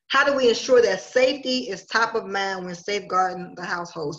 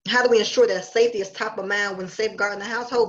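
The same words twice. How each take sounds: First: It is said slowly. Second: It is said at normal speed.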